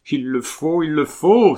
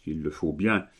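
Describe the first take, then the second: First: High cry building to loud desperation; despairing cry. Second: Said in the usual way. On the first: A narrator's reading. Colomban insists she marry Camille, despairing cry. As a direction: cry it out in despair, harder the second time. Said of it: "avec l'accent du désespoir".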